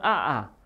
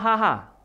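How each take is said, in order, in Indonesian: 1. Tidak ada bunyi h yang terdengar sebelum vokal. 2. Bunyi h terdengar sebelum vokal. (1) "bukan aa" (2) "haha bila tertawa"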